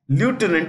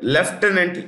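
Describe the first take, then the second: First: It is said with an American pronunciation. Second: It is said with a British pronunciation. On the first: "Lieutenant is American pronunciation" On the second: "Lieutenant is the British pronunciation"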